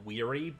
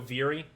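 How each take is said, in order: First: The name begins with a W sound. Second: The name begins with a V sound. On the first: "I've been going with the W sound" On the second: "V is sound is probably more so veery"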